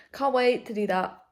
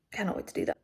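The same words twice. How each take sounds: First: Loud, eager "Can't wait to do that"; real excitement, loud and high; excited burst. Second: Excited but whispered; hushed echo. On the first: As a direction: belt it out with glee. Excited about eyebrow appointment. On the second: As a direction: murmur it to yourself. Repeats it hushed. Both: Real, not acted.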